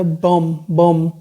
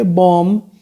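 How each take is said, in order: First: बम said as plain "bum", silent b dropped; correct pronunciation. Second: बॉम्ब said wrongly as "bomb" with the final b sounded; wrong pronunciation. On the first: Teacher showing students the right way, silent b dropped. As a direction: say बम short with no b at the end. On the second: Teacher showing students the wrong way, silent b sounded. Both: Shown as a demonstration. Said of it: "बॉम्ब नहीं बोला जाएगा".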